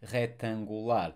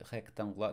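First: Rectangular as he-tan-gu-LAR, no k sound; silent C. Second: Rectangular as hek-tan-gu-LA, k sounded; wrongly sounded C. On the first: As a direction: drop the C from Portuguese rectangular. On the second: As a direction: say the k in Portuguese rectangular, quickly. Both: Shown as a demonstration. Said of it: "we don't pronounce the C".

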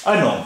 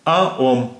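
First: "अनोम" run together, N starting the second syllable; linked N. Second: "आ, ओम" said as two separate words, no N link; words apart. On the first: Teacher shows N joining the next word, "अनोम" as one linked word. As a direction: carry the N into the vowel in "अनोम". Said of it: "जब एन इसके साथ मिल गया". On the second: Teacher shows each French word on its own, "आ, ओम" unlinked. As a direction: split "आ, ओम" with a clear break. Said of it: "अलग-अलग तो था अ". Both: Shown as a demonstration.

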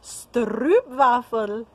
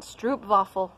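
First: Stroopwafel slowly, drawn out as a Dutch attempt; Dutch try. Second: Stroopwafel in a plain bad American accent. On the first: Vlogger tries the Dutch way for Dutch friends, slow careful try. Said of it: "s-, however you say it". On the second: Vlogger says the Dutch treat in a bad American accent. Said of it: "I'll say it with my bad American accent". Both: Shown as a demonstration.

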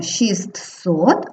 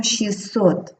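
First: "шістсот" slowly with the written T sounded between the two S sounds; spelling pronunciation. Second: "шістсот" with the T dropped, shis-sot; simplified pronunciation. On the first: Teacher showing pupils the spelling, "шістсот" with T sounded. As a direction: say "шістсот" as written, shist-sot. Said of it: "пишемо шістсот". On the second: Teacher showing pupils the spoken form, "шістсот" without middle T. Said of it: "а вимовляємо шістсот". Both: Shown as a demonstration.

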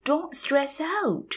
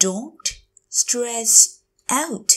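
First: Said in the usual way. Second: Don't, stress, out, each separate; slow teacher model of "Don't stress out"; word by word. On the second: Shown as a demonstration. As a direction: pause between the words of "Don't stress out". Teacher repeats phrase word by word.

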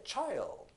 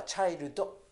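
First: チャイルド with the tongue kept still on the gum ridge; 正しい「チャイルド」; correct child. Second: チャイルド with the tongue moving, every syllable sounded; the typical Japanese way of saying チャイルド; 日本人っぽい「チャイルド」; Japanese-style child. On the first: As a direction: hold the tongue up through チャイルド. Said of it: "こういう発音にします". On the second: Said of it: "こんな感じで動いちゃいますけど". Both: Shown as a demonstration.

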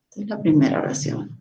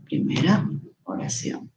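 First: Said in the usual way. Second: Soft whispered repeat of the label; hushed self-reminder while marking text; whispered aside. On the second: Shown as a demonstration. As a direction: whisper it to yourself as you mark it. Teacher repeats label softly.

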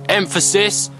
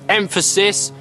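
Both takes have the same delivery.

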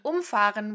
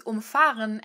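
First: Umfahren with the stress on UM; first-syllable stress in umfahren. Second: Umfahren with the stress on FAHREN; second-part stress in umfahren. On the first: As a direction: hit "um" at the start of umfahren, let "fahren" fall away. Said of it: "and to run over". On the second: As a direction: lean on "fahren" in umfahren, keeping "um" light. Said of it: "which mean to drive around". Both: Shown as a demonstration.

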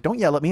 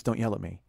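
First: Said in the usual way. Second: Low, soft quoted objection; quiet retold complaint. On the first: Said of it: "And she's like". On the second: Partner objecting during a serious talk, quiet retold complaint. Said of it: "I'll get serious, and I'll say stuff, and she goes".

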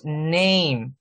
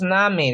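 First: Name as English neim; right name. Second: Name read like Spanish, na-me; wrong name. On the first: Teacher modelling the right English name. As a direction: say name as neim, slow and clear. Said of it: "decimos name". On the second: Teacher showing the wrong Spanish name. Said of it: "No decimos name". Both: Shown as a demonstration.

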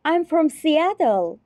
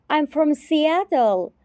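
The two takes are said the same way.

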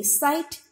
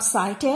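First: "sight" as one syllable with a long i; "sight" with no vowel after the t; correct pronunciation. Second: "sight" misread as two syllables, sigh-tay; "sight" stretched into sai-teh; wrong pronunciation. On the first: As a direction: say "sight" ending cleanly on the t. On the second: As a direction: add a sounded e after the t of "sight". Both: Shown as a demonstration. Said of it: "not sight".

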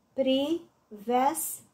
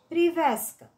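First: "Privească" slowly split, pri-veas-că; syllable by syllable. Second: Said in the usual way. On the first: Shown as a demonstration. („Privească” despărțit rar în silabe: pri-veas-că) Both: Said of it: "Desparte în silabe cuvintele date".

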